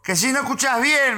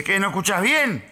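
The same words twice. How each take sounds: First: High, raised mock yell; heated, high-pitched retold challenge; exasperated repeat. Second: Raised, higher-pitched challenge; mildly heated mock query; irritated retold question. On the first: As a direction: repeat it harder for someone hard of hearing. Stranger repeats it for poor hearing. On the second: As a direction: ask it like an annoyed stranger. Acted stranger's first irritated question.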